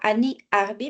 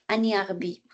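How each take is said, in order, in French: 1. Les deux mots sont prononcés séparément, sans liaison. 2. Les sons se rejoignent dans la même syllabe. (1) "Pas Annie Arbi" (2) "mais dans la même syllabe"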